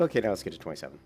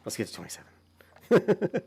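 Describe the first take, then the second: First: Said in the usual way. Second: Higher, louder, slow mock rallying call; playful overdone hype; hammed-up cheer. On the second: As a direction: stretch it out like a big announcement. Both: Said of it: "That's how much I celebrate my leveling".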